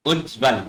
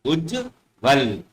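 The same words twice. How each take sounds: First: उज्जवल with a short ch-like middle; mistaken pronunciation. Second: उज्जवल slowly, with a doubled j; correct pronunciation. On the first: Teacher shows pupils the mistaken उज्जवल, said "uch-val". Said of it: "जब हम इसको शुद्ध रूप उच्चारण करेंगे". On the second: Teacher models the pure form, उज्जवल slow as "ujj-val". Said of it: "शुद्ध रूप उच्चारण करेंगे उज्जवल". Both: Shown as a demonstration.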